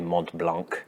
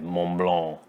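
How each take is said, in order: First: The final consonants are clearly pronounced. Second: The final consonants are dropped or softened. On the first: The speaker calls it wrong. "If you say Mont Blanc, then people on the internet will yell at you" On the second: The speaker calls it right. "You have to say Mont Blanc. ... They don't like consonants"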